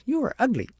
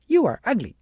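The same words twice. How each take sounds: First: Put-on high, loud childish taunt; spiteful insult. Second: High, loud parroted taunt; mocking echo. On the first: Agnes hurls an insult at the mimicking child, high and loud. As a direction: spit the insult out, pitched up high. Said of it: "thought she was mocking her". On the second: The child mirrors Agnes's insult, high and loud. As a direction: fling the insult right back, pitched up high and louder. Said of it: "And the little girl said". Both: A narrator's reading.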